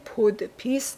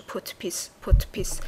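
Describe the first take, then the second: First: پودپیس with a fully voiced D; D pronounced in podpis. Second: پودپیس said "potpis", T before the P. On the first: Teacher showing learners the mistake, پودپیس with a voiced D. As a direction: sound out the D in پودپیس. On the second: Teacher modelling the correct sound, پودپیس said as "potpis". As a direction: devoice the D in پودپیس to a crisp T. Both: Shown as a demonstration.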